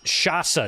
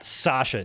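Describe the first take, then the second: First: The word starts with a sh sound. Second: The word starts with an s sound. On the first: The speaker calls it right. "it's Shasa" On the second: The speaker calls it wrong. "not Sasha"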